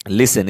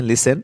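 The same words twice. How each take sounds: First: "listen" with the t sounded, LIS-ten; the mistaken "listen", t clearly spoken; wrong pronunciation with T. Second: "listen" with the t silent, LIS-en; "listen" said without any t; correct silent T. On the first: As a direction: say "listen" pronouncing a hard t. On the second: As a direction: say "listen" as "lissen", no t sound. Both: Shown as a demonstration. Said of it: "इसे listen नहीं पढ़ते हैं".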